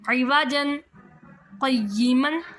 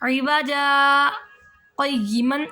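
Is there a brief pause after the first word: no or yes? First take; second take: no; yes. First: The words run together with an n sound, no pause. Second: The first word ends in a long a, then pauses. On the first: "असल में देखा जाए तो ऐसे पढ़ेंगे" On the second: "जब सकता आ जाएगा तो इवाजा"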